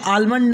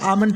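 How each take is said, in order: First: The word is said with an L sound. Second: The word is said without an L sound. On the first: The speaker calls it wrong. "आलमंड नहीं पढ़ना है" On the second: The speaker calls it right. "बल्कि आमंड पढ़ना है"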